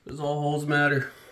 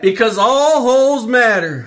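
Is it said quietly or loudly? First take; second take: quietly; loudly. First: It is said at a normal, quieter volume. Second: It is said much louder, almost shouted.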